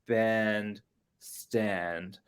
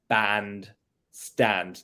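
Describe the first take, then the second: First: The vowel differs from the vowel in Jack. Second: The vowel matches the vowel in Jack. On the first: "instead of" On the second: "to match with Jack and happy"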